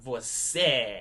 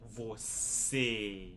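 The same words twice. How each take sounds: First: The final vowel is an open eh sound. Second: The final vowel is a closed sound. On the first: The speaker calls it wrong. "You're not going to hear that letter E sound like an eh sound" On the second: The speaker calls it right. "It's going to be more like"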